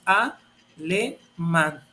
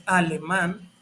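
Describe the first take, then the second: First: "alemán" broken slowly into a, le, mán, with clear pauses; slow, spaced-out teaching demo of "alemán" as a-le-mán; syllable by syllable. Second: Said in the usual way. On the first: Shown as a demonstration. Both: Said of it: "ya lo separé en sílabas".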